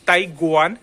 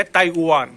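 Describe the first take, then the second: First: ताइवान slowly as "tai-gwaan". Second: ताइवान slowly as "tai-oo-aan". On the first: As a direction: sound a clear G in ताइवान. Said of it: "इसका sound क्या हो जाता है". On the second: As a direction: open ताइवान's W into an OO. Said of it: "वह तो बोल ही नहीं रहा मैं". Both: Shown as a demonstration.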